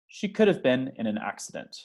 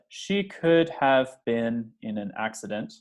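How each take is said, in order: First: 'Could have' is contracted into one reduced chunk. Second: Each word of 'could have' is said in full. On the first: The speaker calls it right. "They'll say" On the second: The speaker calls it wrong. "I promise no native speaker of English will read it that way"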